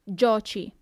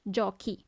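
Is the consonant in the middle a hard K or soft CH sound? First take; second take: soft; hard. First: The middle consonant is a soft CH sound. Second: The middle consonant is a hard K sound. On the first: The speaker calls it wrong. "If there wasn't an H, it would be tu giochi. And that doesn't sound good" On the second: The speaker calls it right. "the H is actually needed to preserve the sound K of the C"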